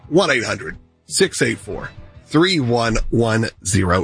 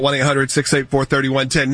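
First: The number is read slowly. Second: The number is read quickly.

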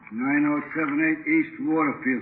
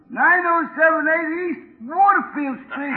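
First: It is said in his normal pitch. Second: It is said in a raised, higher pitch.

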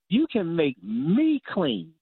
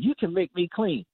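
First: The stress is on "me". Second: The stress is on "you".

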